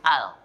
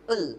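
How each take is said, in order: First: The article is said clearly with an open mouth. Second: The article is mumbled with a nearly closed mouth. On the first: The speaker calls it right. "Cara membaca dengan jelas, buka mulutnya" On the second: The speaker calls it wrong. "Jangan baca e, mulutnya ditutup, itu satu kesalahan"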